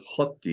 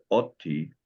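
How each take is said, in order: First: "hoti" with a breathed H in front; aspirated H. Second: "oti" starting straight on the vowel; bare vowel at the start of "oti"; no H sound. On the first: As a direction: say "hoti" as HOT-ee, H sounded. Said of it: "you put an H on there". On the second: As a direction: say "oti" as OT-ee, without an H. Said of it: "You see this is oti". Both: Shown as a demonstration.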